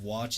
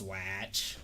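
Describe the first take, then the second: First: It is said in a neutral accent. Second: It is said in a Chicago accent.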